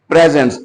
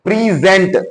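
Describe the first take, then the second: First: The word is said flat with no stress. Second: The stress falls on the second syllable. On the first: "पहले word में कोई stress नहीं है, so we can read it flat word" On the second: "इस जगह पर आकर जहां पर दूसरा सिलेबल शुरू होता है"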